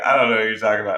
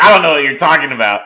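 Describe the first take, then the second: First: Said in the usual way. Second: Playful fake denial. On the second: Laughing denial to DeAndre.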